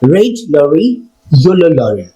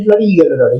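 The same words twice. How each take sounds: First: The phrase is said at a slow pace. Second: The phrase is said at a fast pace. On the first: "slow টু ফাস্টে নিয়ে যাবো" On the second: "এবার আমরা রিদমটা বাড়াবো"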